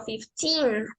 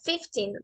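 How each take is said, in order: First: Put-on slow fifteen, the ee of teen held long; right, slow version. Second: Put-on fifteen said quickly, the teen cut short; wrong, short version. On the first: Teacher shows the class the right fifteen, slow and long. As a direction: stretch out fifteen patiently. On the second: Teacher shows the class the wrong, rushed fifteen. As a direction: toss off fifteen in a hurry. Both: Shown as a demonstration. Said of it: "No es fifteen, sino fifteen".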